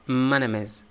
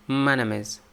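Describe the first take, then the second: No difference in how they are said.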